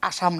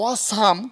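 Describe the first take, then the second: First: The first vowel sounds like an open 'a'. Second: The first vowel sounds like a rounded 'o'. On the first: The speaker calls it wrong. "আসাম না" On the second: The speaker calls it right.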